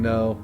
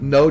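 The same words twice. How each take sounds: First: The word is said plainly, without force. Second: The word is said firmly, with commanding force. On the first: It is a simple refusal. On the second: The refusal is final and not open to argument.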